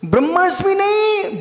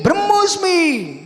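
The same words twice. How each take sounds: First: ब्रह्मास्मि high, with long aa before smi; emphatic wrong form. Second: ब्रह्मोस्मि high, with rounded o before smi; emphatic correct form. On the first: Teacher rejecting a mistake, high long aa in ब्रह्मास्मि. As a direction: pitch it up, open aa in ब्रह्मास्मि, punch नहीं. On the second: Teacher correcting listeners, high rounded o in ब्रह्मोस्मि. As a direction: pitch it up and sound the o in ब्रह्मोस्मि. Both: Shown as a demonstration.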